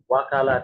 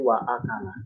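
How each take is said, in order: First: The words run together with no glottal stop. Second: A clear glottal stop separates wa from akala. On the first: The speaker calls it wrong. "Tidak wakala tidak" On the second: The speaker calls it right. "tapi wa akala. Jelas ada a-nya"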